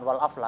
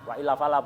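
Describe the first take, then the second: First: It is run together as 'wal afla'. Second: It is read as separate words 'wa illa fala'. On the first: The speaker calls it wrong. "bukan wal afla ya" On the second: The speaker calls it right.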